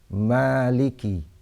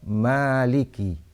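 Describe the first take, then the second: First: The first vowel after m is lengthened. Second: The first vowel after m is lengthened.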